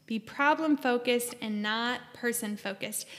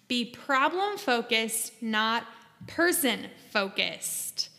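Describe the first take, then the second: First: Said in the usual way. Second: "problem-focused" and "person-focused" drawn out slowly, each stressed; slow, stressed phrase. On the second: Shown as a demonstration. Therapist stressing "problem-focused" and "person-focused" to viewers, slow and deliberate.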